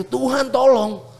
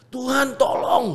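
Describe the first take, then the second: First: High and slow, "Tuhan, tolong" drawn out; retold desperate cry. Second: High, soft, pleading plea to God; a quiet, high-pitched "Tuhan, tolong" like a prayer under his breath; retold inner cry. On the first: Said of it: "Sampai gue seteriak itu". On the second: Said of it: "gue udah teriak kayak gitu".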